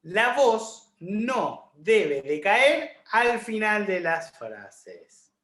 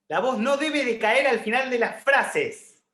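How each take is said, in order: First: The voice drops at the end of the sentence. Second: The voice stays up at the end of the sentence.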